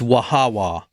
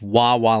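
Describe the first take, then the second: First: The name is said as three syllables, wah-ha-wah. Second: The name is said as two syllables, wah-wah. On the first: The speaker calls it right. "It's Wahawa" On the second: The speaker calls it wrong. "it's not pronounced Wawa like the gas station"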